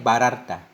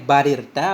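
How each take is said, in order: First: The vowel after the r is 'a'. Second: The vowel after the r is 'i'. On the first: "dengan fathahnya ra" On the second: "dengan kasrah ra"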